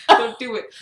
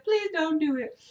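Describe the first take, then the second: First: Loud, mock-disgusted order; scolding misquote. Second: Higher, unforced imitation of begging; retold pleading. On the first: Mom hearing about peeing in the sink, mock scolding. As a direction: tell them off, imitating mom. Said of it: "She didn't say that". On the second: Mom asking not to pee in sink, pleading. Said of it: "She looked at me. She was like".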